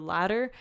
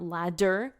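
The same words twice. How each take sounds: First: The middle d is a soft, quick tap. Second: The middle d is a hard, full d. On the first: The speaker calls it right. "which is a different kind of D" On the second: The speaker calls it wrong. "It's not ladder, as you can hear"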